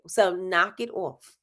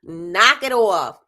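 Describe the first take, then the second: First: Said in the usual way. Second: "Knock it off" slow, stressed and louder; slow firm repeat. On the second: Shown as a demonstration. Firmly telling viewers to knock it off, slow and loud. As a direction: lay down the law on "Knock it off".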